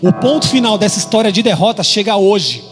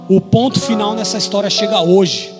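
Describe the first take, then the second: First: It is said with strong, forceful emphasis. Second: It is said calmly, without extra emphasis.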